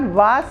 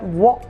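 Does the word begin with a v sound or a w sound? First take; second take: v sound; w sound. First: It begins with a v-like sound. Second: It begins with a rounded w sound. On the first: The speaker calls it wrong. "It's not wa sound" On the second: The speaker calls it right. "but wa sound"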